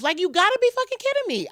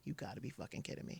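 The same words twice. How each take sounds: First: Much higher and louder, shouted disbelief; furious disbelief. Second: Breathless whisper of shock, almost no voice; a stunned whisper as her world collapses; whispered disbelief. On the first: Raging at fate over his death, high loud outburst. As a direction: yell it at the universe. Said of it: "I was so mad". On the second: On the hospital floor hearing he died, a shocked whisper. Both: Retold or imitated.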